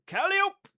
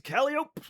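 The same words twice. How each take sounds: First: Calliope said high as CAL-ee-ope; local pronunciation. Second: Calliope said as CAL-ee-ope, three beats; local pronunciation. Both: Shown as a demonstration. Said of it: "Pronounced Calliope".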